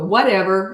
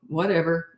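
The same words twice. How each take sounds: First: It is said in an angry, irritated way. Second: It is said calmly and without anger. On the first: The child has won the argument. The speaker calls it wrong. "If you go like this and you go, whatever, and you look angry" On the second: The adult stays in charge and unbothered. The speaker calls it right. "I would just go"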